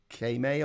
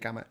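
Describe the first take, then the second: First: The word is said as 'Kame'. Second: The word is said as 'Kama'. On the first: The speaker calls it right. "it's actually pronounced Kame or something" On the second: The speaker calls it wrong. "I just say Kama because that's how I've always said it"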